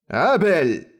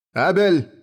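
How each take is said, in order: First: Higher-pitched, restrained roar of a name. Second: Higher-pitched, firm call of a name; commanding. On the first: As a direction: call him sternly to account. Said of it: "проревел он". (грозный, но сдержанный окрик) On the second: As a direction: summon him with authority. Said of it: "приказал он". (приказным тоном) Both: A narrator's reading.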